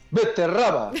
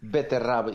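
First: The word is said loudly and forcefully. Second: The word is said at normal volume. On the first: "E ele diz mais alto" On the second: "diz aquilo à maneira bem portuguesa"

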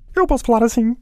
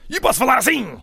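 First: It is said in a calm, gentle voice. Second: It is said in a harsh, aggressive voice.

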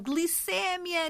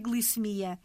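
First: The stress falls on ce, with an open e. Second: The stress falls on mi, with no open e. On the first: The speaker calls it wrong. "abrem a vogal. Glicémia, nível de açúcar, não" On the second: The speaker calls it right. "A forma correta é glicemia"

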